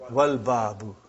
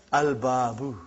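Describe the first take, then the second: First: "Wal Babu" starting on W, L sounded, lower; waw in front. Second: "Al Babu" with a clear L before B, lower; lam pronounced. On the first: Teacher puts waw in front, "Wal Babu" as one linked word. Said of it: "you will say". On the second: Teacher reads what is written, "Al Babu" with L sounded. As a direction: sound the L in "Al Babu", long first BAA. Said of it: "You did not pronounce Lam". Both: Shown as a demonstration.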